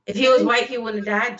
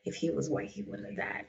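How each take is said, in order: First: Louder, pushing the point; insistent. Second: Quietly muttered, almost whispered; under breath. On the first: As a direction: insist on it firmly. Repeats line insisting. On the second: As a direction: say it half to yourself. Repeats line under breath. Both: Real, not acted.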